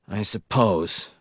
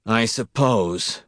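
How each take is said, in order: First: Slow, mildly miserable mumble; a resigned, unhappy give-in. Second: Very slow, drawn-out resigned sigh of words; miserable, slower. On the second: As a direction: give in even more unhappily. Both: Acted. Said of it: "Wisconski said miserably".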